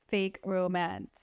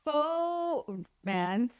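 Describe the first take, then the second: First: Said in the usual way. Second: "faux" drawn out slowly and lifted high, said the French way; fancy French faux. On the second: Shown as a demonstration. Vlogger naming the marketing trend, with a drawn-out fancy "faux". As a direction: savour "faux romance" slowly, higher, as a mock-posh French word.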